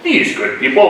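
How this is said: It is said in a put-on British accent.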